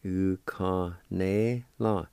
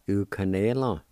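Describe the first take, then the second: First: Slow, syllable by syllable; slow demo. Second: Said in the usual way. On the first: Shown as a demonstration. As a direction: stretch U-ka-ne-la out slowly, each syllable clear. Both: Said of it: "And it's pronounced like this".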